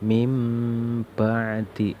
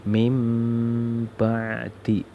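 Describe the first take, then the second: First: The first word ends with a nasal m sound. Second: The same.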